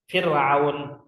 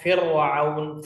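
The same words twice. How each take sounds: First: The r is pronounced thin and light. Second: The r is pronounced thick and heavy. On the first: The speaker calls it right. "dibaca tarqiq" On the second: The speaker calls it wrong. "Maka tidak boleh dibaca dengan tafkhim ya, kayak"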